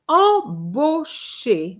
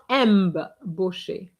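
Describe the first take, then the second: First: The first syllable is a nasal vowel, no M. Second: The first syllable has an audible M sound. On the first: The speaker calls it right. "I N or I M is the same sound, is en" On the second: The speaker calls it wrong. "not M"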